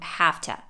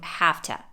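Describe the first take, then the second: First: 'Have to' is reduced to 'hafta'. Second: The same.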